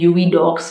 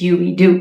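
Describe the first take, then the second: First: The last word ends with a 'ks' sound. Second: The last word ends in a plain 'oo' vowel. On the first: The speaker calls it wrong. "Spelling से लगता है कि इसका pronunciation यूवी डॉक्स होगा" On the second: The speaker calls it right. "Britain pronunciation के हिसाब से it's यूवी डू"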